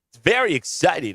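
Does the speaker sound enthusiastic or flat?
enthusiastic. It is said with exaggerated energy and enthusiasm. The speaker is trying to sell the excitement.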